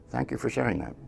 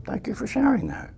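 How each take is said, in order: First: Soft, gentle thank-you, much quieter; quiet, patient reply to the mind; calm dismissal. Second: Higher, soft and kind; tender, light, quiet acceptance; gentle thank-you. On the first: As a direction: kindly let the thought go. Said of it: "you say". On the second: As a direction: lift the voice and thank the mind tenderly. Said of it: "and it says". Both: Retold or imitated.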